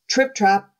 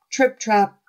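The two takes are said the same way.

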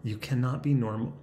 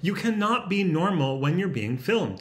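First: Composed, level restart; measured self-calming retake; deliberately calm. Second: Higher, wound-up voice; self-conscious, higher-pitched outburst; odd strained voice. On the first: Shown as a demonstration. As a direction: say it evenly, reining yourself in. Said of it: "let's just be calm". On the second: Real, not acted. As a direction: let nerves push the pitch up. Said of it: "why is my voice like that".

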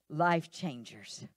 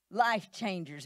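First: "life changers" stretched out slow and weighty; "life changers" said slowly, each syllable held; drawn-out life changers. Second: Said in the usual way. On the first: Shown as a demonstration. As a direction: draw out "life changers" to let it land.

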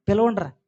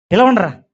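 First: Softer mocking repeat. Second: Mocking call. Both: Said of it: "ఎటకారం చేస్తున్నాడు".

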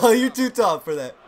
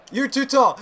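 First: Laughing through the words. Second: Said in the usual way. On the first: Real, not acted. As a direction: chuckle while saying it.

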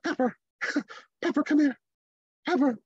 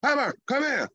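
First: Higher, quick, giggly "Pepper" with no authority; father mimicking his son calling the Yorkie; half-hearted call. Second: "Pepper, come here." pitched up and pushed out with authority; father showing his son how to call the dog; like you mean it. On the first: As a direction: call the dog like you don't expect her to come. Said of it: "he's like". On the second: Shown as a demonstration. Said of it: "say it like you mean it".

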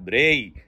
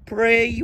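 First: Blunt b for p in pray; tough mispronunciation. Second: Mock-dainty p in pray; pampered correct pronunciation. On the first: Acted. Tough man refusing fancy talk, tough mispronunciation. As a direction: PRAY said as "bray", with a hard b. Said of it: "بس هو راجل ناشف بقى". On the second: Tough man scorning fancy talk, pampered pronunciation. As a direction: PRAY with a puffed p, higher. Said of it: "هنقعد نتدلع بقى ونقول pray".

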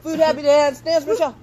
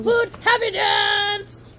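First: High, loud cheering shout; excited shout. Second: Slow, high, loud cheer; excited shout. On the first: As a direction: cheer her on to dance. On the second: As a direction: belt it out like a party chant. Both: Real, not acted. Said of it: "Wanna throw in another happy dance?".

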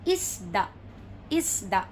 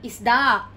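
First: "isda" as IS-da, falling; correct first-syllable stress. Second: "isda" stressed on a loud final DA; wrong final stress. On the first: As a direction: stress IS in "isda", let da drop. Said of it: "It would be". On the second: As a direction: hit the last syllable of "isda", is-DA. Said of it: "Not isda". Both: Shown as a demonstration.

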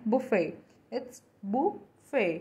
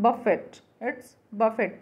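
First: बुफे as "bu-fay", no T; correct pronunciation. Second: बफेट with the final T sounded; common mispronunciation. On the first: Teacher gives learners the right form, careful pronunciation. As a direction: say बुफे ending on an open AY. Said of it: "correct pronunciation है". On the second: Teacher quotes the usual way, common mispronunciation. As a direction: say buffet as "buf-et". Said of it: "हम इसे बोलते हैं". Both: Shown as a demonstration.

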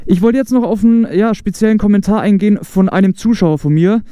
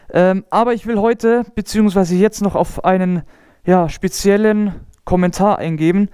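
First: Muffled behind a closed visor; talking inside a closed helmet; inside a motorcycle helmet. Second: Said in the usual way. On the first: Real, not acted. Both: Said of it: "Ich mach doch wieder zu".

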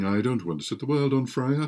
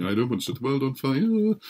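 First: "world" crooned with a rise; sung line. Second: Sung, finish the tune with a flourish on "fire"; sung again, fuller. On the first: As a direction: hum the tune lightly. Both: Acted. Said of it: "he would sit there singing".

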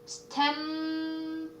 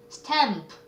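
First: "stamp" drawn out on the m, then a soft voiceless p; voiceless final p. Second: Said in the usual way. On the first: Shown as a demonstration. Teacher showing an unvoiced ending, "stamp" stretched with airy p. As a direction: hold "stamp" and release the p as just air. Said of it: "이건 무성음이어가지고".

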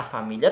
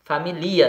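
First: Said in the usual way. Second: "Família" said as fa-mi-LI-a, stress moved onto LI; misplaced stress. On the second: Shown as a demonstration. Teacher showing "Família" without its accent, stressed fa-mi-LI-a. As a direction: say "Família" as if unaccented, fa-mi-LI-a. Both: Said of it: "Se eu não colocar acento, fica como?".

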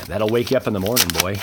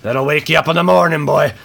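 First: Said in the usual way. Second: Higher and louder, hyped up; the line again, louder and higher; hyped repeat. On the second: Real, not acted. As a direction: punch it out with excitement.

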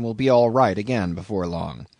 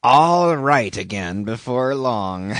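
First: Said in the usual way. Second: Slow, louder mocking echo; solemnly derisive. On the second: A narrator's reading. Stranger echoing the sailor's hope, slow solemn mockery. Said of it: "with a solemnly derisive sort of laugh".

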